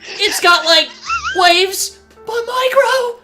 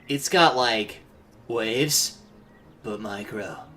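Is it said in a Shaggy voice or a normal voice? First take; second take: Shaggy voice; normal voice. First: It is said in a Shaggy voice. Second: It is said without a Shaggy voice.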